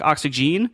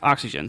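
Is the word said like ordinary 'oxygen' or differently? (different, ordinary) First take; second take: ordinary; different. First: It sounds like the ordinary word oxygen. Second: It sounds different from the ordinary word oxygen. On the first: This is how the spelling suggests it is read. "it looks like oxygen" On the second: This is how the product name is actually said. "it's pronounced oxygen"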